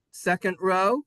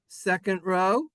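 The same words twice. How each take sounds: The two takes are said the same way.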